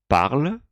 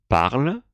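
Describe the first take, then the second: No difference in how they are said.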